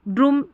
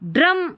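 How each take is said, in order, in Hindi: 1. स्वर लंबा 'oo' की आवाज़ है। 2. स्वर छोटा 'uh' की आवाज़ है। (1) "यू को यू पढ़ते हैं या ऊ पढ़ते हैं तो ड्रूम ड्रूम नहीं" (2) "ड्रम उच्चारण सही निकल रहा है"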